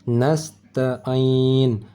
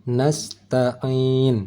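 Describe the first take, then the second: Both takes have the same delivery.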